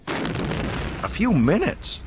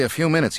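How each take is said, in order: First: High, drawn-out incredulous question; blurted disbelief. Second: Said in the usual way. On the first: A narrator's reading. Luke alarmed at Solo's delay, incredulous blurt. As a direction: echo it in disbelief, pitch shooting up. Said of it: "Luke blurted".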